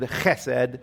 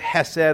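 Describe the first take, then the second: First: It begins with a harsh, throaty friction sound. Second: It begins with a plain, soft h sound. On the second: "It is the Hebrew word hesed"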